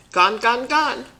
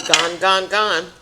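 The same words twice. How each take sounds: First: Put-on higher, sing-song baby voice; little toddler voice. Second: Put-on toddler voice. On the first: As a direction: chirp it like a small grandson. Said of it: "Remember he used to say that". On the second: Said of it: "As Jerry used to say".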